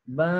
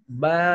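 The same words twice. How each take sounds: First: The vowel is said through the nose. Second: The vowel is said through the mouth. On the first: The speaker calls it wrong. "Yang salah ba, ba, ini masuk hidung" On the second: The speaker calls it right. "yang benar ba, harus mulut"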